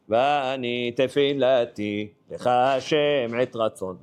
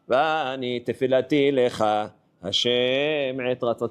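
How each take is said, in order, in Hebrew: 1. יש הפסקה בין 'lecha' ל-'tfilati'. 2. 'tfilati' ו-'lecha' מחוברות בלי הפסקה. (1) "אנשים מפרידים את הלכה מהתפילתי" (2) "צריכים לחבר"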